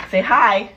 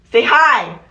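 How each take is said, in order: First: Said in the usual way. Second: Pushier, louder demand to say hi; insist, louder this time; louder insistent prompt. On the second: Acted. Coaxing boyfriend to greet viewers.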